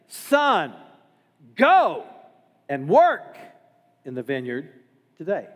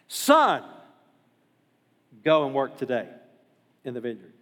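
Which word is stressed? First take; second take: go; Son. First: The stress is on the word go. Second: The stress is on the word son.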